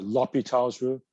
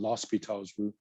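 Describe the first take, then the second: First: The name is said without an s sound. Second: The name is said with an s before p. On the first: "if you take out the S" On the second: "than L'Hospital's rule"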